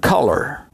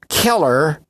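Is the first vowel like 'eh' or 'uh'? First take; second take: uh; eh. First: The first vowel sounds like 'uh'. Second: The first vowel sounds like 'eh'.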